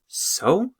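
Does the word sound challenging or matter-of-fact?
challenging. It is said in a challenging, dismissive way. The listener asks why it matters. "as in what? Why does that matter?"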